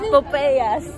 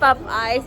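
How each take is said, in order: First: The name ends with a two-syllable 'eyas' sound. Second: The name ends with the English word 'eyes'. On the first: The speaker calls it right. "It's Popeyas" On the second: The speaker calls it wrong. "No, it's not Pop Eyes"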